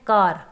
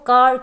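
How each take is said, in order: First: It is said with a strong final r sound. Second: It is said without a final r sound. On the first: "आप पूरे ज़ोर से बोलते हैं कार" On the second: "British English में देखें तो same word कार जो है उसको कार कहा जाता है"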